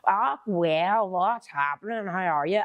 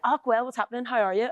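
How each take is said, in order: First: A bad outsider's Northern Irish accent; mock Northern Irish accent. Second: Northern Irish greeting, pitched up; own Northern Irish accent. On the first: Outsider mimicking her Northern Irish accent back at her. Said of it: "And they go". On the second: Retold or imitated. Northern Irish speaker greeting a friend, native Northern Irish lilt. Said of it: "people do my accent".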